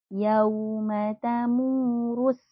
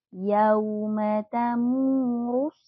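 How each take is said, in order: The two takes are said the same way.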